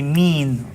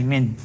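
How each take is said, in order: First: The vowel is drawn out long. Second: The vowel is kept short. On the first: The speaker calls it wrong. "you're not gonna say mean or something" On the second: The speaker calls it right. "You're just gonna say min"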